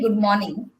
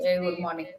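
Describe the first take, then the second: First: It is said warmly, with a smile. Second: It is said flatly, without a smile.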